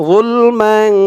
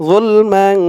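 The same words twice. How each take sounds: No difference in how they are said.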